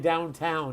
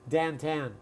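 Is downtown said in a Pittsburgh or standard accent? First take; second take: standard; Pittsburgh. First: It is said in a general American accent. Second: It is said in a Pittsburgh accent. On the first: "They don't say downtown" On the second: "They say downtown"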